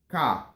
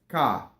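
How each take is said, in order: Both takes have the same delivery.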